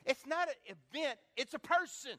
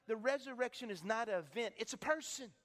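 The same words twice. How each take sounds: First: "not" punched high and loud, "person" falling; emphatic repeat. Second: Said in the usual way. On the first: Shown as a demonstration. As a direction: hammer "not" louder and higher. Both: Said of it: "Let me say that again".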